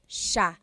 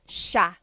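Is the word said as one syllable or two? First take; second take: one; one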